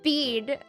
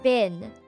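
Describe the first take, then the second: First: The vowel is long, like in 'bean'. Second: The vowel is short, like in 'bin'. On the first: This is how the word is read on its own. "when I read the word in its own, I was like bean" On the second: This is how the word is said inside a sentence. "when I started saying it inside sentences, I'm like bin"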